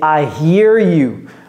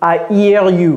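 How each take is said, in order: First: The h in 'hear' is pronounced. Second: The h in 'hear' is silent. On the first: The speaker calls it right. "prononcez-moi le H" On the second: The speaker calls it wrong.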